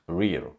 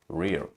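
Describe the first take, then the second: First: The vowel is a short E sound. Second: The vowel is a short E sound.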